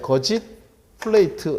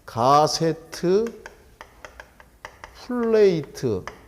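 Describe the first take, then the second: First: Gusset is said as two syllables, geo-jit. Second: Gusset is said as three syllables, ga-se-teu. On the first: "발음의 차이 거짓 플레이트 이렇게도 발음을 합니다" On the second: "요걸 갖다 뭐라고 하냐면 가세트 플레이트"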